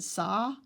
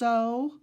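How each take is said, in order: First: The vowel is an open 'aw' sound. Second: The vowel is a rounded 'oh' sound. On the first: The speaker calls it wrong. "I've always said saw, and when I do that, it almost sounds like S A H" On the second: The speaker calls it right. "it really should be pronounced so katoa"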